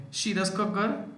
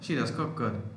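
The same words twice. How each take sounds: First: "She does cook good?" with the voice rising high at the end; rising question. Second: "She does cook good." said as a statement, falling on "good"; flat statement. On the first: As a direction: ask it, lifting "good" up. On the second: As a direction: state it plainly, dropping at the end. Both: Shown as a demonstration. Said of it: "you say".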